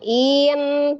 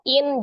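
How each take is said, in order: First: It is swung upward with rising pitch. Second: It is clipped short on a level pitch. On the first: The speaker calls it wrong. "Biasa kan kita suka naikkan tuh" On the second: The speaker calls it right. "langsung in"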